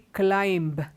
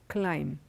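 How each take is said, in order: First: A B sound is pronounced after the M. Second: No B sound is pronounced after the M. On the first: The speaker calls it wrong. "we don't say climb" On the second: The speaker calls it right. "the B is silent"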